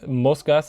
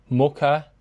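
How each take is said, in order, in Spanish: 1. La s es un sonido de s claro y silbante. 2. La s se convierte en un sonido h aspirado.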